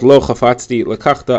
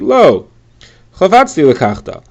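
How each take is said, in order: First: It is said in one breath. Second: There is a pause after lo.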